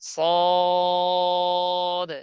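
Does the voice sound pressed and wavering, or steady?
steady. The voice is relaxed and stays steady throughout. The speaker calls it right. "বরাবর উপর নিচ।"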